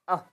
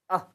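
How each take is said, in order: No difference in how they are said.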